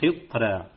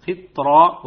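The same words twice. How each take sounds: First: قطرة with a thin, light ra; wrong reading. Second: قطرة slow, with a full heavy ra; correct heavy ra. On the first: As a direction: say قطرة with the ra thinned, as the mistake. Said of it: "وليس". (نطق خاطئ: راء مرققة في قطرة) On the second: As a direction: draw out قطرة and make the ra heavy. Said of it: "فقرأناها قطرة وليس". (راء مفخمة في قطرة ببطء) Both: Shown as a demonstration.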